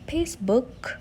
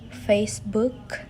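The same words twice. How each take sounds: First: The word starts with a p sound. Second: The word starts with an f sound.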